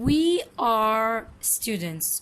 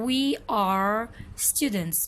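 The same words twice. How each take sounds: Both takes have the same delivery.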